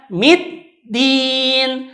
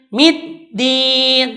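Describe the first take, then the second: The two takes are said the same way.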